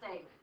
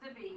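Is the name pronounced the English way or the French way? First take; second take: English; French. First: The name is pronounced the English way. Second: The name is pronounced the French way. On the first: The speaker calls it wrong. "not David" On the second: The speaker calls it right. "So this is Davy, not David. Okay. This is French"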